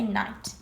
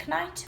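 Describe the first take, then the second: First: Said in the usual way. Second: Knight said as k-night with a hard k; wrong knight, k-night; k sounded. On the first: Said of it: "we say night". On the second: Shown as a demonstration. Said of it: "We don't say knight".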